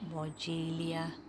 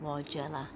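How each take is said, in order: First: The name ends with an added 'lia' sound. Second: The name ends with a plain 'la' sound. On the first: This is how some other people say it. "I've heard some people calling it" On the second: This is how the speaker usually says it. "I usually call it"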